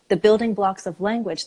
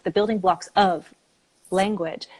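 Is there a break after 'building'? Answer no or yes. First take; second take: no; yes. First: The whole phrase is said as one group. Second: There is a break after the word building. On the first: The speaker calls it right. "that is a thought group" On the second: The speaker calls it wrong. "we don't say the building"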